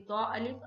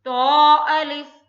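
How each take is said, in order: First: Said in the usual way. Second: तो held two beats, loud and slow; tajweed recitation. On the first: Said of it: "पहला जिसमें है हर्फ तो". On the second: Shown as a demonstration. Teacher recites for students, loud slow chant. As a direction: chant तो अलिफ, stretching तो. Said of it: "तो अदा कीजिएगा कैसे?".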